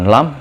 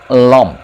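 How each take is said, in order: First: The vowel is oral, with a consonant. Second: The vowel is nasal, without a consonant. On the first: The speaker calls it wrong. "Bukan lamp" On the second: The speaker calls it right. "tapi lamp"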